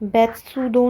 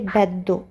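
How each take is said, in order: First: A full 'tsu' syllable is said in the middle. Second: The 'd' sound is held double in the middle. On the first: The speaker calls it wrong. "ये शब्द बेत्सुदो नहीं है" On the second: The speaker calls it right. "इसको पढ़ेंगे बेद्दो"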